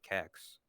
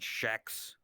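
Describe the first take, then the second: First: The word begins with a hard k sound. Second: The word begins with an sh sound. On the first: The speaker calls it right. "if it's spelled K E X, I'm gonna call it Kex" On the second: The speaker calls it wrong. "Why the fuck would you call it Shex?"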